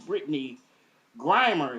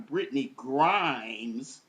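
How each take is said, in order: First: The surname ends with an r sound. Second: The surname ends with an s sound. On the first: The speaker calls it right. "So that's Brittany Grimer" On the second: The speaker calls it wrong. "I was calling her Brittany Grimes"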